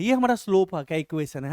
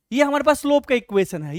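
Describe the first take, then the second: First: Said in the usual way. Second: ये हमारे पास slope का इक्वेशन है with हमारे पास pitched up and pressed; emphatic first take. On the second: Shown as a demonstration. Teacher stressing पास to the class, pitched up.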